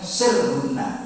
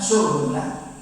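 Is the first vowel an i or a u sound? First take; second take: i; u. First: The first vowel is an i sound. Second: The first vowel is a u sound. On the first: Cut them into pieces. "dalam qiraat yang lain sirhunna" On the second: Gather them to yourself. "surhunna pakai uh, dhammah shad"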